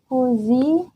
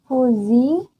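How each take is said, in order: Both takes have the same delivery.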